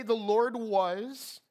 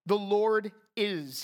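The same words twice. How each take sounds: First: "The Lord was" slow, rising, as the wrong version; contrast on was. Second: "The Lord is" slow, leaning on "is"; stress on is. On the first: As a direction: dis « was » lentement, en montant. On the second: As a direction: appuie sur « is », lentement. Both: Shown as a demonstration. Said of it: "He doesn't say".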